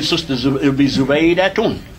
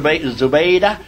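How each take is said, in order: First: The name ends with a full -tun ending. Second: The name ends without the case ending. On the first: It is named in the nominative case. "it would be Zubaydah Tun" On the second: It stands at the end of the statement. "we don't pronounce the last vowel"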